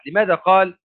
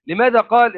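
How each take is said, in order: First: Said in the usual way. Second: قال punched high and loud; stress on qala. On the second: Shown as a demonstration. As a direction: hit قال hard. (نبرة قوية عالية على "قال") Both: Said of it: "يعني لماذا لم يقل".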